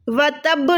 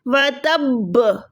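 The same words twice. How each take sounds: First: The final b is short and single. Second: The final b is doubled and held. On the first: The speaker calls it wrong. "व तब नहीं" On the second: The speaker calls it right. "दो टाइम बा पे साकिन लगा के स्टॉप करना है"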